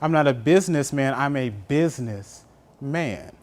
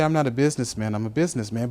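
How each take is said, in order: First: The last phrase is split as business, man. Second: The last businessman is said as one word.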